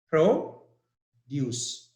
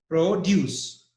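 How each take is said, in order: First: "Produce" as PRO, pause, duce; stress on first syllable. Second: "produce" as pro-DUCE, the verb; teacher demonstrating verb "produce", stress on DUCE; stress on second syllable. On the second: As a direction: say "produce" in one piece, leaning on DUCE. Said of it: "So stress is on D U". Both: Shown as a demonstration.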